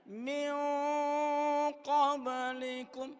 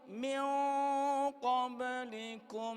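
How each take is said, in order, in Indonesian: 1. Nun sebelum qaf dilembutkan dan disamarkan. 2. Nun sebelum qaf dilembutkan dan disamarkan.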